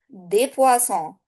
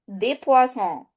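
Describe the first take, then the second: No difference in how they are said.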